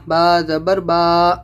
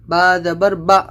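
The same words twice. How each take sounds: First: The final vowel is stretched out long. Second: The final vowel is cut off with a jolt. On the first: "आपको लंबा नहीं करना है, खींचना नहीं है" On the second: "आपको झटका भी नहीं देना है"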